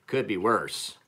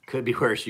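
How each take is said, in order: First: Said in the usual way. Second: "Could be worse." said louder, leaning on "be"; emphatic repeat. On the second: Real, not acted. Defending Busch Light to listeners, emphatic "Could be worse.".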